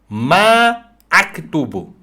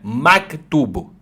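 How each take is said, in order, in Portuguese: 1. A primeira vogal é prolongada antes da pausa. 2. A primeira vogal é curta e segue direto. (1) "Deves prolongar" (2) "não é maktubo"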